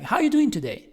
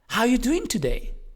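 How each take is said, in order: First: It sounds interested but with moderate, restrained energy. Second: It sounds interested with higher, livelier energy. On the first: The listener seems down, so enthusiasm is kept modest. "There is interest, but it's not too much. It's not exaggerated" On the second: The listener is already positive, so enthusiasm is raised. "then go higher"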